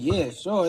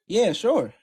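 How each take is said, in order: First: It sounds reluctant and unwilling. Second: It sounds eager and willing.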